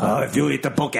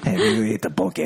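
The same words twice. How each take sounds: First: Put-on Japanese gangster accent, up high; broad Japanese crime boss voice. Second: Put-on Hawaiian accent. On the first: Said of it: "You sound like a Japanese drug lord". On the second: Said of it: "Why is that in a Hawaiian accent?".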